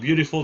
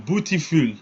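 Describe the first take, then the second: First: The word is said in a plain English accent. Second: The word is said in a heavy French accent. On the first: The speaker calls it right. "instead of saying beautiful" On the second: The speaker calls it wrong. "French people ... they go beautiful"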